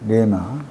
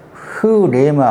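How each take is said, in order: First: The word starts directly with the r sound. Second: The word starts with a breathy h sound. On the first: "흐를 빼버리고 레마 할 수 있습니다" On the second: "정확한 발음은 흐레마"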